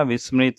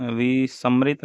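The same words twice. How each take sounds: First: Said in the usual way. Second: विसमृत broken as "vi-sam-rit"; inserted vowel. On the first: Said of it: "विस्मृत होगा". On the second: Shown as a demonstration. Teacher showing the mistake, विसमृत with inserted vowel. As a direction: put an "a" between s and m in विसमृत. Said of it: "नहीं होगा".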